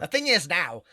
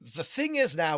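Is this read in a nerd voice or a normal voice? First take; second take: nerd voice; normal voice. First: It is read in a put-on nerdy voice. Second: It is read in the speaker's normal voice.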